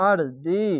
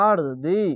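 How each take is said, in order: Both takes have the same delivery.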